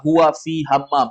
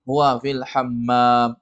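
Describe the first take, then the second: First: "fi" said short and plain with no l before "hammam"; wrong reading. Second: "fil" with a clear l sliding into "hammam", said slowly; correct slow model. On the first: Teacher echoes the student's wrong reading to correct it. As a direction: echo the error with "fi" flat and quick. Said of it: "Salah itu". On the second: Teacher models the correct reading for the student. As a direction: model it slowly, every sound spelled out. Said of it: "Yang benarnya fil". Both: Shown as a demonstration.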